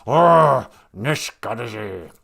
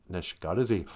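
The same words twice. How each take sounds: First: Hammed-up angry growl; mock mad. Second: Said in the usual way. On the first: Shown as a demonstration. Teacher demonstrates an Ojibwe word for mad, mock angry. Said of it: "If you have a word like mad".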